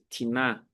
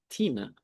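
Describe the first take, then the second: First: The stress falls on the second syllable. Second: The stress falls on the first syllable. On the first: The speaker calls it wrong. "em vez de" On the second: The speaker calls it right. "com acento agudo na primeira sílaba"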